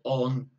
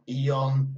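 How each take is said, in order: First: The suffix is a full, open 'on' sound. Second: The suffix is a two-part 'ee-on' sound. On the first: "not eon or on" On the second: "not eon"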